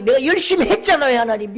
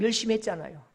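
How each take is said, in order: First: High, shouted plea; loud, impassioned insistence; anguished protest to God. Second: Understated, wounded protest; subdued plea to God. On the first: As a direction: cry out your grievance to God. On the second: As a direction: plead with God in a contained voice. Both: Acted. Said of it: "하나님 가슴을 치는 거예요".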